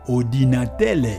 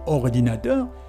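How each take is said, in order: First: The word ends with an L sound. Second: The word ends with an R sound. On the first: "ils diraient plutôt ordinatelle" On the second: "au lieu plutôt que de dire ordinateur"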